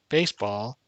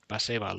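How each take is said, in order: First: It is said with an ordinary English pronunciation. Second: It is said with a Spanish-style pronunciation. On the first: "you don't just say, oh, baseball" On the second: "you would pronounce that totally differently, right? It would be like baseball"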